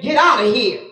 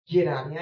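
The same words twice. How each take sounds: First: Dismissive. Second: Muttered dismissal. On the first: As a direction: Get out of here tossed off firmly at normal volume. Nabal dismissing the messengers. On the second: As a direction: Get out of here said much softer and lower. Nabal dismissing, repeated quietly. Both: Acted.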